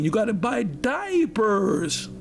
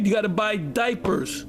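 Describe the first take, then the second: First: It is said imitating Laleen's voice. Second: It is said in the speaker's own voice.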